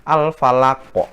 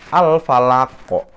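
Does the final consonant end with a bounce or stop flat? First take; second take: bounce; bounce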